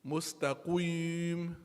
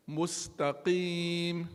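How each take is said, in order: First: "Mustaqim" slow, with lips rounded so "qim" sounds like "qwim"; slow "Mustaqim" with a rounded u-colored i; wrong mustaqim. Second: "Mustaqim" slow, with a clean i in "qim"; slowly drawn out "Mustaqim", lips spread on the i; correct mustaqim. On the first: Teacher showing the student's mistake, slow and rounded. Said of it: "I'm pronouncing a i". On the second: Teacher giving the correct reading before the wrong one, slow and clean. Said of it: "What did I do wrong?". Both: Shown as a demonstration.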